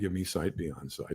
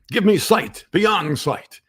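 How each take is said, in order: First: It is said casually, in an everyday speaking voice. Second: It is said dramatically, in a loud commanding voice. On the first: "here, as I'm talking to you, it's like" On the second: "On television, it sounds like"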